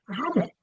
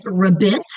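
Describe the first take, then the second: First: RABBIT as RAB-it, strong start and light end; stress on first syllable. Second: RABBIT as ruh-BIT, weak start and loud rising end; wrongly stressed second syllable. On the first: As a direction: hit the RAB in RABBIT, let BIT shrink. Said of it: "you can hear the difference". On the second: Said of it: "if I'm gonna say it incorrectly". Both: Shown as a demonstration.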